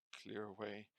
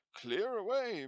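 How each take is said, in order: First: Said in the usual way. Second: "Clear away" boomed much higher and louder; "Clear away" roared by a jovial old man; hearty jovial shout. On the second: A narrator's reading. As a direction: bellow "Clear away" like a jolly master. Fezziwig calls his apprentices.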